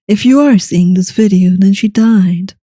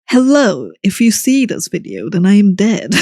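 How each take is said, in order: First: It is said in a solemn, serious tone. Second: It is said in a casual, joking tone.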